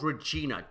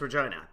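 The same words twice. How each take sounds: First: The name ends without rhyming with 'vagina'. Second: The name ends rhyming with 'vagina'. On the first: This is an outsider's way to avoid the rude rhyme. "It's called Regina" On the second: This is the local way to say the city's name. "because it rhymed with the Jesus"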